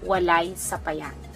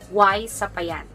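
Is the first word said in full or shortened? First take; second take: full; shortened. First: The first word is said in full, two syllables. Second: The first word is shortened to one syllable.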